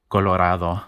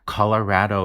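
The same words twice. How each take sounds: First: The middle vowel is an open Spanish a. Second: The middle vowel sounds English, Anglo style. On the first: "the vowel in Spanish is a" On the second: "a much more Anglo pronunciation of this word"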